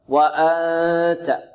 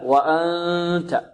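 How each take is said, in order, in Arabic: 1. أكثر الصوت يخرج من الفم. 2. أكثر الصوت يخرج من الأنف. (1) "والبعض يخرج أكثر الصوت من الفم" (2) "لكن الصحيح أن الصوت الذي يخرج من الأنف أكثر"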